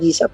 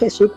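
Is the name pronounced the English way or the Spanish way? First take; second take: English; Spanish. First: The name is pronounced the English way. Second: The name is pronounced the Spanish way. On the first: "en inglés dicen Jesus porque ellos hablan inglés" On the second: "nosotros decimos Jesús porque hablamos en español"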